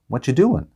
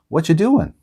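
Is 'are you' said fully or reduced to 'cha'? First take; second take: reduced; reduced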